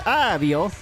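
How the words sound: It is said with an Italian accent. "Italians say"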